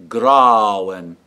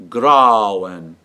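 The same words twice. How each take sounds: The two takes are said the same way.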